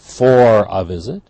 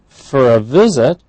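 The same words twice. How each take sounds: First: The word 'for' is said with a full vowel. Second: The word 'for' is reduced to a weak vowel. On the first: The speaker calls it wrong. "We don't say are coming for a visit" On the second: The speaker calls it right. "that for is for"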